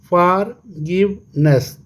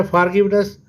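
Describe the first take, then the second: First: Slow "forgiveness" in three beats, फॉर, गिव, नेस; syllable by syllable. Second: Said in the usual way. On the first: Shown as a demonstration. ("Forgiveness" तीन हिस्सों में, धीरे से) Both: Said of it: "three syllable".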